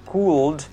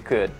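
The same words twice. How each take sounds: First: The L sound is pronounced. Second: The L sound is silent. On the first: The speaker calls it wrong. "bukan could" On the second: The speaker calls it right. "tapi dibaca could"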